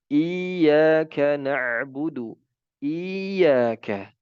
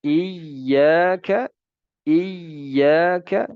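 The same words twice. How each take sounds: First: Slow, "iyyaka" with the y drawn out into an extra long i; faulty recitation, long ya added; wrong long ya. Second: "iyyaka" with a firm doubled y, higher and louder. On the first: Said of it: "Justru malah dipanjangkan iya-nya". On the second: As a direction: lean on the shadda in "iyyaka". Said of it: "Harusnya kita baca dengan tasydid". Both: Shown as a demonstration.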